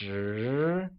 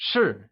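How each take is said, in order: First: The pitch rises on the syllable. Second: The pitch falls on the syllable. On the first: It means ten. "pronounced with a mid-rising tone" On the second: It means am. "the only difference being that of the tone"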